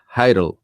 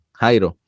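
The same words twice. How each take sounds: First: "Jairo" as English "HY-rol", ending in an L; anglicized pronunciation. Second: "Jairo" as "HAI-ro", with a jota; Spanish pronunciation. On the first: Host telling what he called himself for gringos, "Jairo" as English "Hyrol". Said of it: "decía que me llamaba". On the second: Host recalling seminary among gringos, "Jairo" the Spanish way. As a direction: say "Jairo" in Spanish, H-like first sound. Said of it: "nadie podía decir Jairo". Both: Shown as a demonstration.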